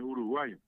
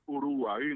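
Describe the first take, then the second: First: The final vowel has a Spanish i sound. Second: The final vowel has the Guarani sound. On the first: The speaker calls it wrong. "no es Uruguay" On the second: The speaker calls it right. "Así como es Uruguay"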